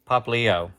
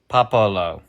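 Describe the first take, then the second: First: The name is said as 'Pap-li-o'. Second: The name is said as 'Po-po-lo'. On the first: The speaker calls it right. "say it again so I can get it right" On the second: The speaker calls it wrong. "How was I saying it?"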